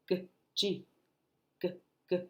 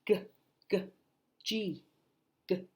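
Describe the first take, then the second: No difference in how they are said.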